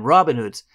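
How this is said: It is run together like one compound word. The speaker calls it wrong. "Alsof het één woord is. Net zoals Superman"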